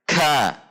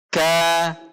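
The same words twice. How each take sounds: First: A strong burst of air follows the k. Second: A light puff of air follows the k. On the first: The speaker calls it wrong. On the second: The speaker calls it right.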